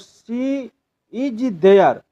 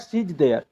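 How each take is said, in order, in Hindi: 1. हर शब्द, 'is' समेत, अलग-अलग बोला जाता है। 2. 'She is' एक ही सिलेबल में मिल जाता है, 'she's'।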